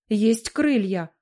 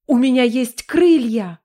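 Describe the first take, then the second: First: Said in the usual way. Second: Louder, thrilled cry; excited exclamation. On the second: Acted. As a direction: shout it out in delight. Discovers she can fly.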